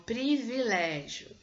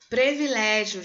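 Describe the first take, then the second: First: "privilégio" with a clear "pri", slow; correct pronunciation. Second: "Privilégio" with "pre", /pɾevilɛʒio/, loud; wrong pronunciation demo. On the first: Teacher correcting to "privilégio" with "pri". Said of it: "Não, é um privilégio". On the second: Teacher showing students' mistake "Privilégio" as "previlégio". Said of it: "A gente falando privilégio". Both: Shown as a demonstration.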